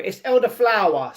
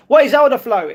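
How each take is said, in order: First: Elderflower said in full with a clear final flower; patient correction to elderflower; correcting the word. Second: Elderflow said as if it were a complete word; puzzled reading of elderflow; misread word. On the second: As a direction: read elderflow aloud as the word, stopping short before the final flower sound. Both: Shown as a demonstration.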